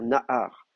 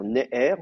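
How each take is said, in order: First: Both vowels sound like a. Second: Both vowels sound like e. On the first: The speaker calls it right. "on va dire nahar" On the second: The speaker calls it wrong. "on va pas dire neher"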